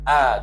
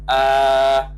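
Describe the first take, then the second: First: The vowel is short and clipped. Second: The vowel is drawn out long. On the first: It calls someone who is near. "dikosarkan tanpa ada mat, ah gitu sahaja" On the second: It calls someone who is far away. "Adapun untuk ba'id dia panjang, ah gitu"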